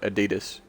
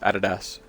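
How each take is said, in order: First: It is pronounced the non-Australian way. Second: It is pronounced the Australian way. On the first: This is how people elsewhere say it. "some people around the world call it Adidas" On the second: This is how people in Australia say it. "in Australia it's it's Adidas"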